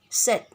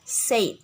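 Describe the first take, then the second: First: The vowel is the short e sound. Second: The vowel is changed to an a sound. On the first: The speaker calls it right. "Pronunciation in English, namely said" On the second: The speaker calls it wrong. "but students pronunciation it with said"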